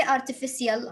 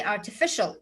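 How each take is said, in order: First: Artificial with s, ar-ti-fi-si-al; wrong pronunciation. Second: Artificial with sh, ar-ti-fi-shəl; correct pronunciation. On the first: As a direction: sound the c in artificial as s. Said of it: "I will not say artificial". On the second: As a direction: say artificial as ar-ti-fish-əl. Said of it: "I will say artificial". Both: Shown as a demonstration.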